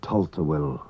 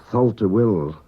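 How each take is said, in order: First: "Tulta Will" beginning with a plain T; Manx T for TH. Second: "Thulta Will" beginning with TH as in thin; English TH. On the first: Teacher gives the real Manx Gaelic name, plain T version. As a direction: start "Tulta Will" with T, no TH sound. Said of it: "T H is pronounced like T". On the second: Teacher quotes the common name of the place, English TH version. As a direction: start "Thulta Will" with the tongue-between-teeth TH. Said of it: "What we call Thulta Will". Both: Shown as a demonstration.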